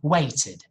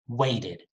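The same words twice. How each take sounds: First: The middle t is a crisp, clear stop. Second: The middle t is a soft single tap. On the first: "That's very British too" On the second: "American people say weighted... Very soft"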